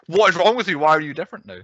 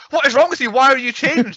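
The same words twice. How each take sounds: First: Retold outburst, only lightly acted; mild mock outrage. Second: Much higher, louder imitation of an indignant girlfriend; hammed-up sudden outburst, pitch leaping up; mock outrage. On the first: Retelling a girlfriend suddenly snapping at her boyfriend, mild mock outrage. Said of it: "all of a sudden was like". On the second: Girlfriend turning on her boyfriend instantly, mock outrage. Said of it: "she turns on him instantly".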